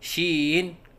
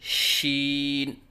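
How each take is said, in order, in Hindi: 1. शब्द डगमगाती आवाज़ में कहा गया है। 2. शब्द स्थिर आवाज़ में कहा गया है। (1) "लहराव के साथ पढ़ना" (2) "सही अदायगी है"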